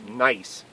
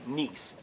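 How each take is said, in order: First: The vowel is an eye sound. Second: The vowel is an ee sound. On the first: The speaker calls it right. "that's always pronounced I" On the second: The speaker calls it wrong. "not niece"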